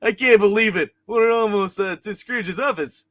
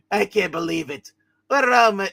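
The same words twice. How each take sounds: First: Higher, louder voice for an excited figure; lightly put-on voice, pitched up in disbelief; corrected character voice. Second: Character voice begun near the usual pitch, then jumping up; lightly voiced figure, in disbelief; wrong character voice. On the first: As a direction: redo it in a raised character voice. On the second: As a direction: start in a mild character voice, then rise and get louder. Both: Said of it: "that's the wrong voice for him".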